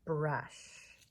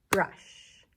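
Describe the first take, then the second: First: Said in the usual way. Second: "Brush" as one loud beat; "Brush" punched hard as one syllable; single clapped syllable. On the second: Shown as a demonstration. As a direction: clap out "Brush" in a single strong hit. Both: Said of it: "One syllable for brush".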